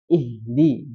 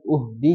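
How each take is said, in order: First: Ihdi said with a clear i as the first vowel; ihdi, never uhdi; correct ihdi. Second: Uhdi said with a rounded u as the first vowel; wrong uhdi. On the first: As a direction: open ihdi on an unrounded i. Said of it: "Nah, jadi i ya". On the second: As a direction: show the mistake, uhdi with u. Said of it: "jangan uhdi". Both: Shown as a demonstration.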